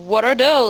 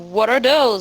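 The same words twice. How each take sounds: First: It is said in a light, friendly tone. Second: It is said in a light, friendly tone.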